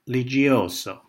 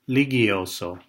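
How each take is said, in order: First: The G is soft, like a J sound. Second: The G is hard, like in go. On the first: The name is treated as Italian. The speaker calls it wrong. "pronouncing uh, our name with a soft G" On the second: The family's own pronunciation of the name. The speaker calls it right. "with a hard G"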